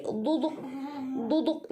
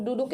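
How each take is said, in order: First: "duduk" with slightly lisped d's; lisped dal. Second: "duduk" with plain Indonesian d; ordinary D. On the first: Teacher shows the letter da, "duduk" slightly lisped. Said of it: "Agak sedikit cadel". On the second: Teacher contrasts alphabets for students, "duduk" with plain d. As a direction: say "duduk" in the everyday way. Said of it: "itu bukan duduk". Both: Shown as a demonstration.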